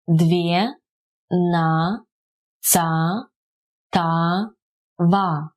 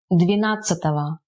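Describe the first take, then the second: First: "две, на, ца, та, ва" slowly, one syllable each. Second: Said in the usual way. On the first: Shown as a demonstration. Teacher repeating the numeral for learners, syllable by syllable. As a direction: leave gaps between "две, на, ца, та, ва".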